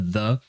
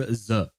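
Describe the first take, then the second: First: It begins with th, tongue between the teeth. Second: It begins with a z-like sound, no tongue-teeth contact. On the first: "the proper the, like with your tongue between your teeth" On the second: "because it's easier for them to pronounce it, pronounce it like that"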